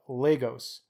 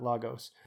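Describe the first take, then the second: First: It is said the anglicized English way. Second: It is said the Portuguese way. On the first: The speaker calls it right. "we will do our best to enunciate properly" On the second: The speaker calls it wrong. "not Lagos"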